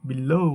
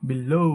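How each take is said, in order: No difference in how they are said.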